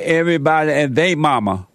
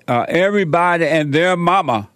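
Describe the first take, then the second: First: The word before mama is said as they. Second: The word before mama is said as their. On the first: "The blacks would say" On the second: "when I say everybody and their mama"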